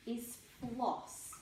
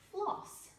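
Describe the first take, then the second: First: Said in the usual way. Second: "Floss" said much higher; announcing the word. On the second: Shown as a demonstration. Teacher presenting floss to the class, high pitch.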